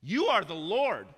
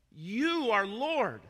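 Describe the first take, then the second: First: Louder and higher, slowed with weight; loud preacher's declaration; fervent proclamation. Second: High, loud and very slow; loud slow worship declaration; drawn-out proclamation. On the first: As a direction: proclaim it like a worship cry. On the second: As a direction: stretch every word like a fervent cry. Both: Acted. Quoting believers in worship.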